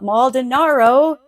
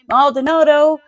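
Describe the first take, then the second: First: The consonant before the last vowel is r. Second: The consonant before the last vowel is d. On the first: The speaker calls it wrong. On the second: The speaker calls it right. "I'm also saying the victim's name"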